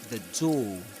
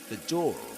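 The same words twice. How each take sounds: First: The R at the end of door is silent. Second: The R at the end of door is pronounced. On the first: "but this is the door, door, door with a long O sound" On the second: "That's in American English and other accents as well. Um, they say door"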